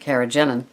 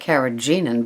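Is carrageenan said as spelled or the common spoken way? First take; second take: common way; as spelled. First: It is said the usual everyday way. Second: It is sounded out following its spelling. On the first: "people pronounce it carrageenan" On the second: "it spells like carrageenan"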